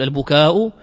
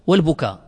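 First: "البكاء" with a long final aa closed by a glottal stop; elongated ending. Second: "والبكاء" ending on a plain aa, no hamza; shortened ending. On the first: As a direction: draw out the aa in "البكاء" and sound the hamza. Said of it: "فيها لغة بالمد". ("البكاء" بمدّ الألف ونطق الهمزة) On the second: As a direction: drop the glottal stop at the end of "والبكاء". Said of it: "بالق-، بالقصر". ("والبكاء" بالقصر دون همزة) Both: Shown as a demonstration.

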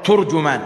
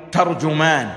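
First: ترجمان said "turjuman", with a u after the t; damma on ta. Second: ترجمان said "tarjuman", with an a after the t; fatha on ta. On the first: Preacher shows the other reading, ترجمان as "turjuman". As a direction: round the first vowel of ترجمان to "tur". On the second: Preacher shows a variant reading, ترجمان as "tarjuman". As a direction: open the first vowel of ترجمان to "tar". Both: Shown as a demonstration. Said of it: "بفتح التاء وضمها".

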